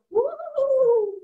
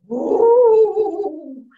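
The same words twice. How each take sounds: First: High-pitched ghostly woo; Mama Ghost wail. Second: Big, loud ghostly woo; Papa Ghost wail. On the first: Mama Ghost haunts the house, high wail. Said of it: "Mama Ghost would go". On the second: Papa Ghost haunts the house, loud wail. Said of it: "Papa Ghost would go". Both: Retold or imitated.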